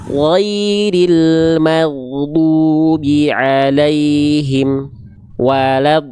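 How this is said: There is a stop after 'alaihim'. The speaker calls it wrong. "Jangan sampai dibaca"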